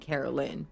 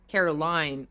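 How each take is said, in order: First: The last syllable sounds like 'lin'. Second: The last syllable sounds like 'line'. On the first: "or even L I N would be Carolyn" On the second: "but Caroline, like L I N E, is clear"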